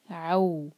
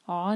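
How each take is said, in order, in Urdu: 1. یہ آواز a سے w کی طرف پھسلتی ہے۔ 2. یہ ایک خالص لمبی او کی آواز ہے۔ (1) "فتح کو واو سے جوڑیں گے" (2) "عو نہیں کہیں گے"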